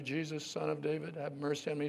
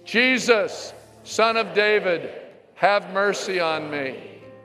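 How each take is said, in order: First: It is said at a normal, softer volume. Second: It is said more loudly.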